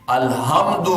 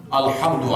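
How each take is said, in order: First: الحمد said with a clipped final d, no vowel at the end; الحمد cut short, ending flat on the d; wrong pronunciation. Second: الحمد with a clear short u after the d; correct pronunciation. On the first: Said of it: "یہ غلط ہے". (غلط تلفظ: الحمد آخر میں بغیر اعراب کے) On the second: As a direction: say الحمد as alhamdu, voicing the final vowel. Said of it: "الحمد آنا چاہیے". (صحیح تلفظ: الحمد کے آخر میں پیش کے ساتھ) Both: Shown as a demonstration.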